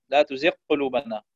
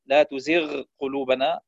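First: تزغ swallowed into the q of قلوبنا, one doubled q; merged ghayn. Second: تزغ ending in flowing gh before قلوبنا; distinct ghayn. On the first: Teacher showing a mistake, تزغ قلوبنا with ghayn merged. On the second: Teacher giving correct recitation, تزغ قلوبنا with ghayn distinct. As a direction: separate the gh of تزغ from the q. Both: Shown as a demonstration. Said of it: "يدغم الغين بالقاف".

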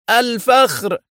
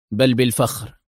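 First: High, incredulous exclamation; outraged disbelief. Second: Composed, level-pitched reply; calm. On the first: Director echoing the officer's answer, angrily incredulous. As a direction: throw it back indignantly, pitch leaping. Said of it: "في غضب واستنكار". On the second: Officer answering the director's shaming question, calmly. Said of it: "أجابه أدهم في هدوء". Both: A narrator's reading.

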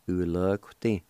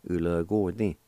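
First: "Ulagti" with no UO after the "g"; shortened pronunciation. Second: "Ulagordi" with the UO sounded after "g"; full pronunciation. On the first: Teacher recapping the short way for learners, UO dropped. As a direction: say "Ulagti" with "g" running straight into "ti". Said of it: "or Ulagordi". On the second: Teacher recapping the long way for learners, UO sounded. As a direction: say "Ulagordi" in full, vowel kept before "di". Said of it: "you can pronounce a Q U O sound". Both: Shown as a demonstration.

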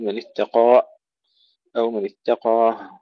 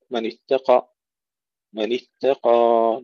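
First: من اتقى ending with an added breath or glottal stop; wrong endings on اتقى; wrong pronunciations. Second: من اتقى with the ألف held for two beats; correct pronunciation. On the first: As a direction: tack a sound onto the ألف of اتقى. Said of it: "لا نضيف حرفا في الآخر". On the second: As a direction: stretch the end of اتقى slowly. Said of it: "نمدها حركتين". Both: Shown as a demonstration.

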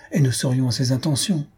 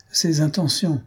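First: Said in the usual way. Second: Higher, mocking repeat of ses intentions; ironic echo. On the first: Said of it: "Ses intentions? fit Jujube avec ironie". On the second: A narrator's reading. Jujube mocking his wife's hopeful remark, ironic. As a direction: throw her words back with irony. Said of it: "fit Jujube avec ironie".

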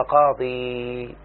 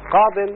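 First: قاضي drawn out on a long, slow "ee"; long final ya. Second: قاض said with a short i and closing n, "qadin"; nunated ending. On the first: Teacher showing a student the underlying form, long final ya. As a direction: stretch the end of قاضي, no n. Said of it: "أصلها". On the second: Teacher showing a student the indefinite form, nunated. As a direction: end قاض on a clear tanween n. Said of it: "لاحظ إنها نكرة". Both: Shown as a demonstration.

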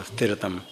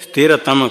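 First: Said in the usual way. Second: स्थिरतम said firmly and clearly as a model; a teacher's clear prompt; clear model word. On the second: Shown as a demonstration. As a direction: say स्थिरतम crisply for the class to repeat. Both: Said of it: "स्थिरतम कहो".

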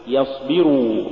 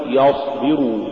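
First: Said in the usual way. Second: يصبروا with a dark, thick يَ; wrongly heavy ya. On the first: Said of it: "قل". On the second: Shown as a demonstration. Teacher warning against an error, heavy ي in يصبروا. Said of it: "ولا تقل".

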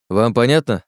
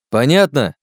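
First: Firm question, moderately raised; firm check. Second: Louder, sharply higher repeat; insistent demand. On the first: Oleg demands the group's agreement, firm but contained. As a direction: ask "понятно" firmly, without a shout. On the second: Oleg presses the silent trio for agreement, insistent and loud. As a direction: hit "понятно" high and loud. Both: Acted.

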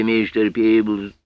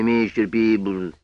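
First: "мистер" said as "миштер", s slurred into sh, slowly; slushy sh for s. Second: Said in the usual way. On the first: Acted. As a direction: lisp "мистер Пиблз" with sh for s. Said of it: "своим странным шепелявым голосом".

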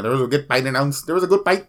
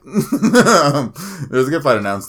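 First: Playful Filipino accent, "fight" as "pight"; mock Filipino-accented announcement. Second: Said in the usual way. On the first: Shown as a demonstration. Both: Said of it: "why am I speaking like I'm Filipino".

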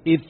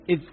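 First: إذ pressed hard so the ذ turns into ث; wrong ث for ذ. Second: Said in the usual way. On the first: Shown as a demonstration. Teacher showing the common mistake: إذ pressed into ث. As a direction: press on إذ until it sounds like ith with ث. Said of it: "تنقلب ثاء". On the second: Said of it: "ينطق الذال الساكنة".

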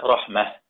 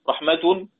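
First: رحمة stopped on a silent h, raħmah; pausal form. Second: رحمة read on, ending in a voiced vowel, raħmatu; connected reading. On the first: Tajweed teacher showing students the stop on رحمة. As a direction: stop on رحمة with the final taa becoming h. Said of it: "أقف عليها رحمة". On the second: Tajweed teacher showing رحمة read without a stop. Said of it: "رحمة مثلًا بالتاء المربوطة". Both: Shown as a demonstration.

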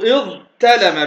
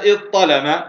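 First: اضطلم as iẓ-talama, with a light t; original ta pronunciation. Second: اضطلم as iẓ-ṭalama, with a heavy ṭ; ta turned ṭa. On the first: Teacher shows the underlying form, light t in اضطلم. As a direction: split اضطلم after ẓ, then a plain t. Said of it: "فالأصل اضطلم بالتاء". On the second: Teacher gives the spoken form, heavy ṭ in اضطلم. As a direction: make the t in اضطلم dark and emphatic. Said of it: "لكن قلنا اضطلم". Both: Shown as a demonstration.

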